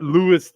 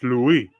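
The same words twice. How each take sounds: First: It is said with an English pronunciation. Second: It is said with a French pronunciation. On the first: The speaker calls it wrong. "It's not" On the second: The speaker calls it right. "in French"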